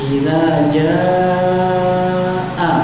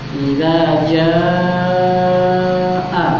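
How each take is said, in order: Both takes have the same delivery.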